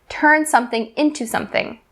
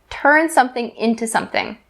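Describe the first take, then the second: No difference in how they are said.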